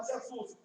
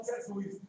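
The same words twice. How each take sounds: First: Carioca-style pronunciation of "Jesus"; Carioca accent. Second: Cearense accent. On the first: Cearense preacher showing how Cariocas say Jesus, Carioca accent. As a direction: say "Jesus" as Rio locals do. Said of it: "Vocês carioca falam Jesus". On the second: Preacher contrasting his own speech with Cariocas, Cearense accent. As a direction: own Cearense pronunciation of "Jesus". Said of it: "Eu falo Jesus". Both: Shown as a demonstration.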